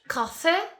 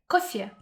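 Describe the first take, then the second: First: The second syllable is drawn out and resonant. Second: The second syllable is said very briefly. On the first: "In English, coffee, coffee, I mean a lot of vibration" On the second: "second syllable, you shall pronounce very briefly, like coffee"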